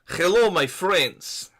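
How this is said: It is said in a put-on Russian accent.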